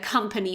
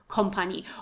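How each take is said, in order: First: It is said with the standard English pronunciation. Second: It is said with a common learner mispronunciation. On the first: The speaker calls it right. "the word uh, company" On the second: The speaker calls it wrong. "very often mispronounced by people as"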